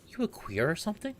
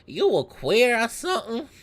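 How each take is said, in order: First: It is said in the speaker's ordinary accent. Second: It is said in a put-on Southern accent.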